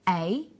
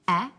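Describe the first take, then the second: First: It is a long vowel sound. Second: It is a short vowel sound. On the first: "Then the long vowel sounds" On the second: "firstly the short vowel sounds"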